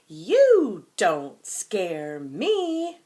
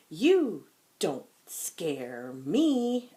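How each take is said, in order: First: Much louder, slow, higher defiant shout. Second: Slow, loud defiant line. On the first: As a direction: shout it out so the monster hears. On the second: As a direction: say it firmly to the monster. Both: Shown as a demonstration. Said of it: "We have to say it lound".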